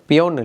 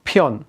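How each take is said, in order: First: The first consonant has no puff of air. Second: The first consonant has a puff of air. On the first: The speaker calls it wrong. "இந்த பியோன் இல்லை" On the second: The speaker calls it right. "உங்களோட வாயிலேருந்து சின்ன காற்று ஒன்று வரணும்"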